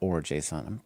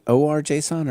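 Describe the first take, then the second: First: The first part is said as one word. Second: The first part is spelled out as letters. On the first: The speaker calls it wrong. "or JSON is weird" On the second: The speaker calls it right. "let's go with O R"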